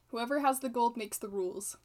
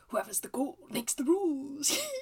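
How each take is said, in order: First: It is said flat, without expression. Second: It is said with expressive character intonation.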